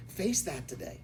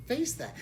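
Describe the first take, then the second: First: Said in the usual way. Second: Face pitched high and hit hard; higher insistent Face that; emphatic repeat. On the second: Shown as a demonstration. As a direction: drive the word Face home. Repeated exhortation to the audience.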